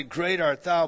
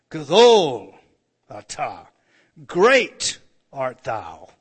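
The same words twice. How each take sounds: First: Said in the usual way. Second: Loud, slow, drawn-out reading of "Gadol atah, great art thou"; solemn loud proclamation of "Gadol"; intoned scripture. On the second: Acted.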